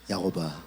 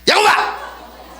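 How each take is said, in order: First: It is said in a soft, loving tone. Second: It is said in a harsh, scolding tone.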